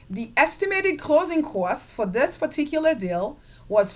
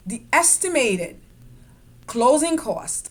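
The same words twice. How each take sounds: First: Said in the usual way. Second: The estimated, a clear pause, then closing cost; pause after estimated. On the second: Shown as a demonstration. Teacher pausing on estimated to warn about cost variation. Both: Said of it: "I pause after the word estimated".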